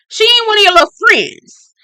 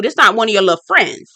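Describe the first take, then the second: First: Much higher, louder indignant repeat; indignant scolding. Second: Said in the usual way. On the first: Retold or imitated. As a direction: push it up, outraged on ain't. Scolding the boys for disrespect.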